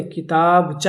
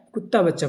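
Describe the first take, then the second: First: کتابچہ as one word, kitabcha, slow and careful; correct pronunciation. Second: کتا بچہ said as two separate words, کتا then بچہ; wrong split reading. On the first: Shown as a demonstration. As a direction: say کتابچہ as a single joined word, drawn out slowly. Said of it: "یہ کتا بچہ نہیں". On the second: Retold or imitated. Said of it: "بعض حضرات نے اس کو کیا پڑھ دیا ہے".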